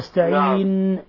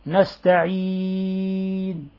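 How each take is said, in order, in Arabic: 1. النون الأخيرة مضغوطة بقوة عند الوقف. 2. النون الأخيرة خفيفة وغير مضغوطة. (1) "لا تقول نستعين" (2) "تخفف النون مثل نستعين، لا تضغط عليها عند الوقف عليها"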